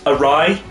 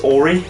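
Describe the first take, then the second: First: The word is said as 'a-rye'. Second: The word is said as 'or-ee'. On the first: The speaker calls it right. "it's pronounced awry" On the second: The speaker calls it wrong. "I pronounced it as Ori"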